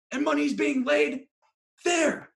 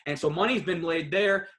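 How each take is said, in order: First: Excited, high-pitched. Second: Said in the usual way. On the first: Shown as a demonstration. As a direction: voice jumps way up and loud. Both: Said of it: "repeated higher and louder".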